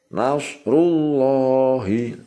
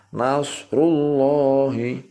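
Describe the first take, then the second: No difference in how they are said.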